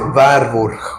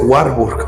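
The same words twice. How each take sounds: First: The name is given a German pronunciation. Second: The name is given an American English pronunciation. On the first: The speaker calls it right. "se dice Warburg" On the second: The speaker calls it wrong. "no se dice Warburg"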